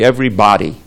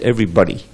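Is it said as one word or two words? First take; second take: two words; one word. First: It is said as two separate words. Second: It is said as one single word. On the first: It means every physical body. "if you're going to have two words, it'll be everybody" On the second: It means every person. "If you look up in the dictionary, the word everybody... It's pronounced everybody"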